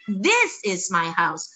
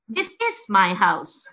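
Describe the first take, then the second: First: The word this carries the stress. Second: The word is carries the stress. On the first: This one is my house, not that one. "this bisa ditekankan mengandung makna berbeda juga" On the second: It really is my house; I am not lying. "Juga is-nya yang di stress"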